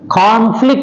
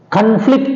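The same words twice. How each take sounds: First: The stress is on the first syllable. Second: The stress is on the second syllable. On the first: It is used as a noun. "it is a noun" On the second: It is used as a verb. "it is a verb"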